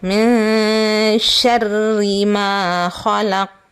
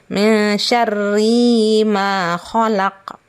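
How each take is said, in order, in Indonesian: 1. Vokal pada 'ri' dibaca pendek. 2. Vokal pada 'ri' dibaca panjang. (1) "Yang benar adalah" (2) "kalau membacanya seperti ini ... itu bacaannya ah, salah"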